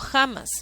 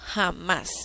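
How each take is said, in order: First: The stress is on the first syllable. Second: The stress is on the last syllable. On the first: The speaker calls it wrong. "Yo no digo jamás" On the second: The speaker calls it right. "digo jamás"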